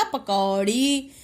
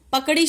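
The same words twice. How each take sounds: First: पकौड़ी slow, with a long औ; पकौड़ी stretched as "pa-kau-ree"; corrected word. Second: पकड़ी with a short "a" after क; quick middle vowel in पकड़ी; misspelt word. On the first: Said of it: "तो हमने क्या लिखा". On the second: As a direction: say पकड़ी without any औ. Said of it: "ऐसे ये देखिए". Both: Shown as a demonstration.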